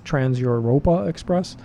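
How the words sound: The title is said with a German lean. The speaker calls it wrong. "pronouncing it with a little bit of a German lean there"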